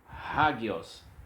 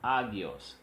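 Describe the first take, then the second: First: The word begins with an h sound. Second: The word begins directly with the vowel. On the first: The speaker calls it right. "se traduz com o H e se pronuncia hagios" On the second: The speaker calls it wrong. "e não agios"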